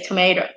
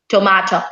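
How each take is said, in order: First: Tomato is said with an American accent. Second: Tomato is said with a British accent. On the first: "Americans say" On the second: "British people, they say"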